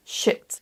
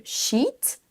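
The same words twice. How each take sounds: First: "shit" with a short, lax I. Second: "sheet" with a long EE, rising. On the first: Teacher contrasting two words, short I in "shit". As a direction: keep the vowel in "shit" brief. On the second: Teacher contrasting two words, long EE in "sheet". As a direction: draw out the vowel in "sheet". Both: Shown as a demonstration. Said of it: "faites bien la distinction".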